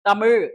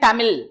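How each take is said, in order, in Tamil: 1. இது 'zh' என்ற மூர்த்தன்ய ஒலியில் முடிகிறது. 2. இது சாதாரண 'l' ஒலியில் முடிகிறது. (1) "இசட் ஹெச் போட்டாதான் அந்த சவுண்ட் வரும்" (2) "இல்லைன்னா"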